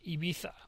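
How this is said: It is said with a Spanish pronunciation.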